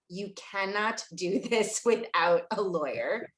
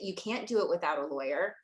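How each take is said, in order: First: It is said slowly and deliberately. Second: It is said at a normal, quicker pace.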